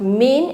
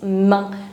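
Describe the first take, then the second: First: It is said like the English word main. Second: It is said with a French nasal vowel. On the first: The speaker calls it wrong. "It's not main" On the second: The speaker calls it right. "it's main. Like pain"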